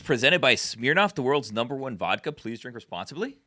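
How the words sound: The pitch rises like a question. It sounds uncertain, as if asking. The speaker calls it wrong. "I said it as though it was a question"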